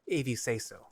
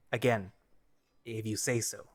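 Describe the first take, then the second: First: Said in the usual way. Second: Grudging muttered concession; defeated mutter. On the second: Acted. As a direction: mutter it, giving up. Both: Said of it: "Vol mutters defeatedly".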